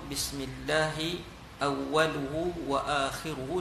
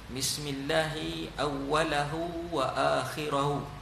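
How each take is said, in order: First: The word endings use the vowel u. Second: The word endings use the vowel a. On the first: "dengan baris hadapan" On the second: "baris atas"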